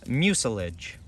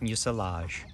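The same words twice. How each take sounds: First: The ending sounds like the end of forage. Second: The ending sounds like the end of garage. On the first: The speaker calls it right. "it is closer to forage" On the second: The speaker calls it wrong. "my intuitions went with garage or mirage"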